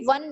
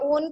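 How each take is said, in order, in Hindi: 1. यह 'w' से शुरू होकर बोला जाता है, 'won' जैसा। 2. यह 'oh' स्वर के साथ बोला जाता है, 'own' जैसा। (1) "वन नहीं बोला जाता इसको" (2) "इसको प्रोनाउंसिएशन करते हैं ओन के फॉर्म पे"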